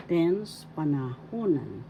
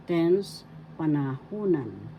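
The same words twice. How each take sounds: The two takes are said the same way.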